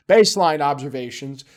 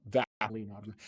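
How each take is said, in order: First: "baseline" said louder, with a clear B; corrected reading. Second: "Vaseline" for baseline, low and quiet; misreading. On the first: Speaker correcting own misreading to viewers, emphatic "baseline". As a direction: firmly restate it as "baseline". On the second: Speaker mocking own misreading to viewers, muttered "Vaseline". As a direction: mutter "Vaseline" under your breath. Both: Real, not acted.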